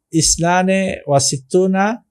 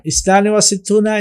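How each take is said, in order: First: Said in the usual way. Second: Quick recap repeat. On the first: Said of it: "teacher drilling number pronunciation". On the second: Shown as a demonstration. Teacher rushing through the Arabic number for students, fast. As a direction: rattle off ইসনানে ওয়া সিত্তুনা fast, slightly higher. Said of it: "teacher quickly repeats the number".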